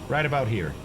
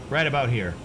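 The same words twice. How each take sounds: No difference in how they are said.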